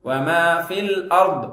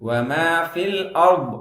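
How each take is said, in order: The two takes are said the same way.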